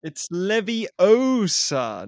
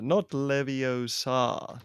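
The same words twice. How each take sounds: First: Leviosa with a long, stretched O; very slow, pointed "Leviosa", stressing the O; mock-prissy correction, drawing out the O in Leviosa; imitated pronunciation correction. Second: Leviosa with a long, drawn-out final A; mock the mistake, leaning on the end of Leviosa; imitated wrong pronunciation. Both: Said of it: "It's about how you pronounce Wingardium Leviosa".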